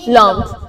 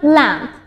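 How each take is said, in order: First: It is said with a Persian pronunciation. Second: It is said with an English pronunciation. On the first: "ما چی میگیم؟" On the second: "اونا میگن"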